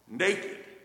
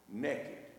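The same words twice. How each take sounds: First: It is said with the standard pronunciation. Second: It is said with a drawled Southern pronunciation. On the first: The person simply has no clothes on. "Naked means you got no clothes on" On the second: The person has no clothes on and is up to something. "Naked means you got no clothes on and you up to something"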